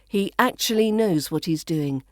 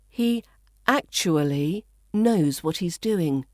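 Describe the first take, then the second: First: Actually is said fast with syllables squeezed. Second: Actually is said slowly with every syllable. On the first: "the fast, more natural-sounding pronunciation in the second version" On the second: "the first, which is the slower, fuller pronunciation"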